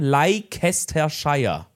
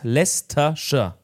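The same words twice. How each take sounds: First: Every written syllable of the name is pronounced. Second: The name is said in a shortened form. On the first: "die schreibt man Leicestershire" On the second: "Und die spricht man aus Leicestershire"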